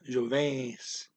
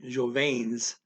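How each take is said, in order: First: The N is only a nasal, sliding into S. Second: The N is pronounced as a full consonant. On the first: The speaker calls it right. "going through the N as a nasal and right into the S" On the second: The speaker calls it wrong. "I'm not saying jovens"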